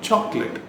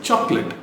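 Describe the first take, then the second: Both takes have the same delivery.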